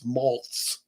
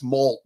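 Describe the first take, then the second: First: The name ends in a ts sound. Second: The name ends in a plain t sound. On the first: The speaker calls it right. "it's Maltz with a Z on the end" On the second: The speaker calls it wrong. "I always want to say it's Malt"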